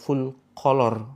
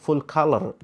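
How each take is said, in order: First: Color is said like the Indonesian word kolor. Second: Color is said with a fluent English pronunciation. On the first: It sounds like the word for underpants. The speaker calls it wrong. "bukan full color ya. Kalau color itu celana" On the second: It means full of colours. The speaker calls it right. "Ini bahasa Inggris. Pengucapannya harus fasih"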